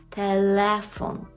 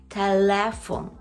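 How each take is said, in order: No difference in how they are said.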